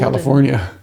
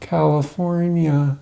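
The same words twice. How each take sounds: First: It is said in a plain, ordinary voice. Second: It is said in an exaggerated commercial voice. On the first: The speaker calls it wrong. "I'm saying it wrong" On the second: The speaker calls it right. "You gotta say it like that"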